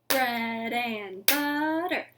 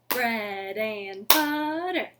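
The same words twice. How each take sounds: No difference in how they are said.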